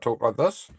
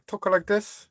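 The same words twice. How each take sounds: First: It is spoken in a New Zealand accent. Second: It is spoken in a Chinese accent. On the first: "I'm a New Zealander. I talk like this" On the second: "if I'm from the China, I talk like this"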